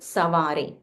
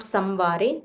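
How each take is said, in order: First: The vowel before the v is nasalized. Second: A full m sound comes before the v. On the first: The speaker calls it right. "There's a nasal wa" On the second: The speaker calls it wrong. "It's not samvare"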